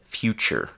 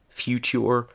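First: The middle consonant is a ch sound. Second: The middle consonant is a plain t sound. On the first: The speaker calls it right. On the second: The speaker calls it wrong.

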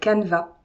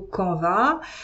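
First: The word is pronounced the English way. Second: The word is pronounced the French way. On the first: "quand on prononce un peu à l'anglo-saxonne" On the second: "en français on dit plutôt Canva"

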